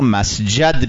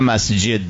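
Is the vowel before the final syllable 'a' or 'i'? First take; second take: a; i. First: The vowel before the final syllable is a. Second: The vowel before the final syllable is i. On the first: This is the form the rule predicts. "قیاس و قاعده صرفی میگه باید ما مسجد بخوانیم" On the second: This is the established form that breaks the rule. "نه مسجد بخونیم"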